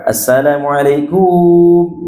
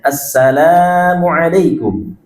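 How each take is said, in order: First: The final kum syllable is drawn out long. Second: The lam syllable is long; kum is short. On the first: The speaker calls it wrong. "salah ya, dengan memanjangkan kumnya" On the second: The speaker calls it right. "Kumnya itu pendek. Lamnya yang panjang"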